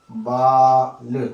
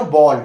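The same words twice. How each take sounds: First: बाल drawn out very slowly with an open aa; plain baal. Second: बॉल said louder with a rounded open o as in ball; English o sound. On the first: Teacher drawing out बाल for students, slow and clear. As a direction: stretch बाल out slowly for the class. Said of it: "बाल आप सब लोग जानते हैं". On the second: Teacher contrasting बॉल with बाल, louder and rounded. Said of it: "तो इसका अर्थ बिल्कुल भिन्न हो गया". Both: Shown as a demonstration.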